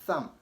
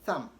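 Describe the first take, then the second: Both takes have the same delivery.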